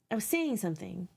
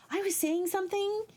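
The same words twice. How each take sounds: First: Said in the usual way. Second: Much higher pitch, held up throughout; high-pitched musing. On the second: Real, not acted. Trying to find her lost thread, high-pitched musing. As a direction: pitch the whole phrase way up.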